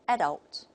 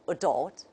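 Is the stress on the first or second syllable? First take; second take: first; second. First: The stress is on the first syllable. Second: The stress is on the second syllable. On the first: "the stress is on the first syllable" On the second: "the opposite"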